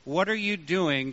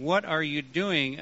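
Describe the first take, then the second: First: Said in the usual way. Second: "What" stressed, falling as a challenge; accusing "What are you doing?" with a hard "What"; challenging accusation. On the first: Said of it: "just an inquisitive question". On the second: Shown as a demonstration. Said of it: "a challenging accusation".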